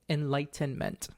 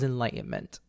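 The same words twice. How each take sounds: First: The middle T is clearly and fully pronounced. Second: The middle T is swallowed, not clearly pronounced. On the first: The speaker calls it right. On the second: The speaker calls it wrong.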